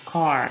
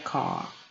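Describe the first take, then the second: First: It is said with the R pronounced, American style. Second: It is said without the R, British style.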